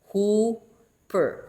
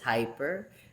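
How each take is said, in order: First: The first vowel sounds like 'oo'. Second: The first vowel sounds like 'eye'. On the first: "the pronunciation is hooper" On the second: "pronounce it as as it is"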